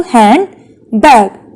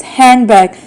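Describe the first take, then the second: First: "Handbag" as hand, bag, with a pause; split into syllables. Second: Said in the usual way. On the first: Shown as a demonstration. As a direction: separate the two halves of "Handbag". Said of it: "how many syllables it is divided into". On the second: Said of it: "We will see how many syllables".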